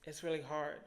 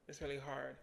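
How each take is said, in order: First: Emotional. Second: Softer, fading repeat; near-whispered echo of the first line; quiet, emotional. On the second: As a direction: let it sink almost to nothing. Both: Real, not acted. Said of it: "trying not to get emotional on this camera".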